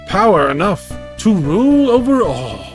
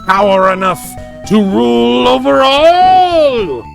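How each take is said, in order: First: It is read in a plain, ordinary voice. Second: It is read in a menacing villain voice.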